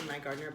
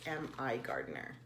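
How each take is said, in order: First: The first part is said as the word my. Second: The first part is spelled out as letters M, I. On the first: The speaker calls it wrong. "I always say My Gardener" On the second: The speaker calls it right. "but I think it's M I Gardener"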